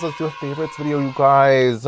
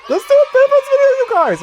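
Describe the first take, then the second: First: Same words, back near her own pitch; calmer excited repeat. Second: Much higher and louder, fast; squealing excitement. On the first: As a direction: repeat it, settling down. Repeats the idea. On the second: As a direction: burst out with the idea. Sudden excited idea. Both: Real, not acted.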